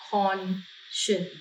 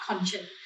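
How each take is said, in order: First: Soft conscience, "con-shuns"; pronunciation demo. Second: Softer, slow conscience; model word. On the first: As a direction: read conscience aloud softly for copying. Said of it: "อ่านออกเสียงว่า conscience ด้วย". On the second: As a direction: say conscience slowly for them to copy. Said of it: "อ่านออกเสียงว่า conscience". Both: Shown as a demonstration.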